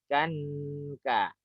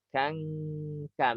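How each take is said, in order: First: The n is nasal but clearly pronounced. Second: The n is hidden, gliding straight into k. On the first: The speaker calls it wrong. "Dengung tapi nunnya jelas itu juga tidak tepat" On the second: The speaker calls it right. "masuk langsung ke huruf berikutnya"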